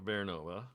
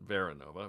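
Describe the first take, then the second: First: No extra vowel sound follows the first syllable. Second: An extra vowel sound follows the first syllable. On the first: The speaker calls it right. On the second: The speaker calls it wrong. "not Veranova"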